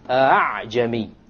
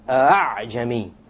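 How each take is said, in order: First: The second hamza is softened, between hamza and alif. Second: The second hamza is softened, between hamza and alif.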